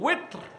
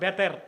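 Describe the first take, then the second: First: The word begins with a W sound. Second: The word begins with a B sound. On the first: The speaker calls it right. "শব্দটা হচ্ছে কি ওয়েত্র" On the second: The speaker calls it wrong. "আপনারা বলেন বেতের"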